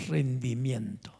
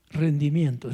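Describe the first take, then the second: First: "rendimiento" slow, soft and lower, drawn out; hushed slow. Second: Said in the usual way. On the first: Shown as a demonstration. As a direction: breathe "rendimiento" out low and slow. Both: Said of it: "Digan conmigo".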